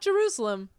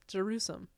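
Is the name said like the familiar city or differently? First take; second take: familiar city; differently. First: The name sounds like the familiar city name. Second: The name is said in a different, altered way. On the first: The speaker calls it wrong. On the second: The speaker calls it right.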